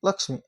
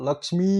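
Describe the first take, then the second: First: The final vowel is short. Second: The final vowel is long. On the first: This is the everyday adapted form. "ಋಸ್ವಸ್ವರ ಆಗ್ತಾವ" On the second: This is the original borrowed form. "ದೀರ್ಘ ಅಂತದ್ದು"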